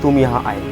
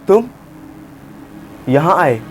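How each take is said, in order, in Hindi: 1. यह प्यार और कोमल लहजे में लगता है। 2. यह हैरान लगता है, पहले शब्द के बाद रुकता है। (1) "आपको प्यार से बोलना है" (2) "शॉक में बोलूं ... मैंने तुम बोलने के बाद थोड़ा पॉज लिया"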